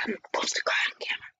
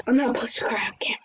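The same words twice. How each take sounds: First: Fast, hushed words through tears; rushed teary whisper. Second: Fast, hushed correction through tears; rushed teary whisper. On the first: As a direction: whisper it quickly, fighting back crying. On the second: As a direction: whisper it quickly, holding back crying. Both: Real, not acted.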